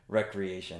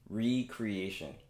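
First: It starts with 'reck', blended into one word. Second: It starts with 'ree', then 'creation' follows. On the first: It means leisure activity or pastime. "But for some reason, we call it recreation" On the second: It means creating something anew. "If you break down the word, it actually says recreation"

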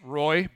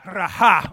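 First: The word is said as one gliding syllable. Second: The word is said as two separate syllables. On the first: The speaker calls it wrong. "that's a super American pronunciation of that word" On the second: The speaker calls it right. "these people are Hebrew. They have the Raha"

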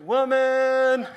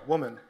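First: The word is held and drawn out. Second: The word is said short and plain.

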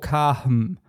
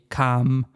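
First: An h sound is pronounced after the vowel. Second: The vowel is long with no h sound. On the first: "even if you just pronounce the H" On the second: "that would be kam with a long A"

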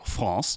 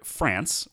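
First: The R is a trill at the back. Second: The R is a plain English R.

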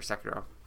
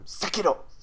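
First: It is said in a plain, normal voice. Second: It is shouted in a fierce warrior voice. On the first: "I said it correctly" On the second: "just say it like a... like a hardcore samurai every time"

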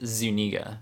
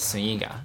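First: The name is said with an English pronunciation. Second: The name is said with a Spanish pronunciation. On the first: "My last name is Zuniga"

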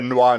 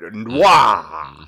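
First: The word is said flat and plain. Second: The word is said big and dramatic.

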